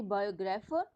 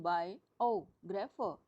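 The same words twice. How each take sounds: First: Said in the usual way. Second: "biographer" slowly, बाय, ओ and grapher set apart; split into parts. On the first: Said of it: "ओ पर stress देंगे". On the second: Shown as a demonstration. Teacher showing where the two parts are, slow split "biographer". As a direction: stretch "biographer" out with a pause between parts. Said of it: "दो part हैं".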